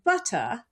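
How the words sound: Southern British accent, with the final R dropped. "if you're a Southern British English speaker, a standard Southern British English speaker, you'll say something like butter"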